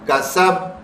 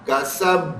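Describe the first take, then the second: First: The final consonant is released without an echoing bounce. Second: The final consonant is released with an echoing bounce. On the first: "बगैर echo sound के ये तीनों कैसे पढ़े जाएंगे" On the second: "देखें बाबे echo sound बन रहा है"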